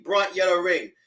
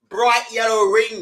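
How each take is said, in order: First: Said in the usual way. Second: Slow, louder, disbelieving; incredulous emphasis. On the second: Real, not acted. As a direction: spell it out in disbelief.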